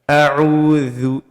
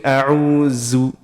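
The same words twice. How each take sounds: First: The dh is made with the tongue tip out. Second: The dh is made with the tongue hidden. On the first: The speaker calls it right. "You should see the tip of the tongue" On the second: The speaker calls it wrong. "The tongue is being is being hidden"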